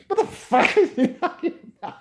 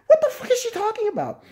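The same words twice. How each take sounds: First: High shriek breaking into laughter; high laughing repeat; laughing disbelief. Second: High, loud disbelieving shriek; high shocked screech; incredulous shriek. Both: Real, not acted.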